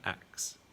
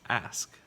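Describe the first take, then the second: First: The k sound comes before the s. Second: The s sound comes before the k. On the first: The speaker calls it wrong. "not ax" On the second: The speaker calls it right. "we put that S sound first"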